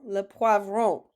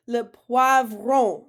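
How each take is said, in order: First: Said in the usual way. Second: "Le poivron" slow, louder and clear; teacher introducing a new word slowly; slow model word. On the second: Shown as a demonstration. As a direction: stretch it out for learners. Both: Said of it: "I'll say it, you say it".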